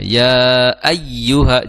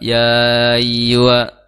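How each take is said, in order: First: The doubled y is pressed with slight stress. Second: The doubled y is said with no stress. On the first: The speaker calls it right. "sedikit ditekan ketika membaca ya atau waw yang bertasydid" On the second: The speaker calls it wrong. "nggak ada tekanan, nggak ada naber lah"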